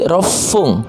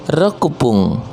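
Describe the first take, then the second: First: The 'ku' is dropped and the p is doubled. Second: A full 'ku' syllable comes before 'pun'. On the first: The speaker calls it right. "tapi rofung" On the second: The speaker calls it wrong. "bukannya rekupung"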